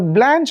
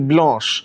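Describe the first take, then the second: First: The name is said with an American pronunciation. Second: The name is said with a French pronunciation. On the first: "is the American pronunciation" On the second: "the French pronunciation, it is actually Blanche"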